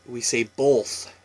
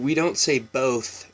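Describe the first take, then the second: First: "both" with a light l, bolth, slow; slight L in both. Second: Said in the usual way. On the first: Shown as a demonstration. Vlogger showing viewers her Washington bolth. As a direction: slip a faint l into "both". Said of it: "we throw an L".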